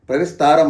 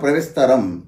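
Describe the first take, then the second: First: The vowel in 'sta' is long. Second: The vowel in 'sta' is short. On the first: The speaker calls it wrong. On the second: The speaker calls it right.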